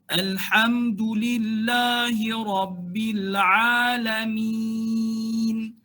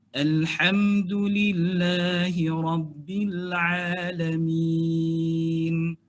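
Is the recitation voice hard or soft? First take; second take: hard; soft. First: The voice is hard and forceful, mouth wide. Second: The voice is soft and relaxed, mouth moderate. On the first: "Bunyi keras satu" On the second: "suara pun kita lembutkan"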